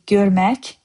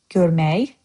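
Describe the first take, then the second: First: The word ends with a k sound. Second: The word ends with a y sound.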